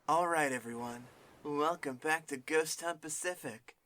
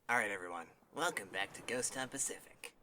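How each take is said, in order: First: It is read in a put-on preppy voice. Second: It is read in her plain, normal voice.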